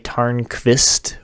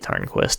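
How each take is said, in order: First: The last syllable has a V sound after K. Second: The last syllable has a W sound after K. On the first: "with a V" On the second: "because it's just easier and I have an English accent"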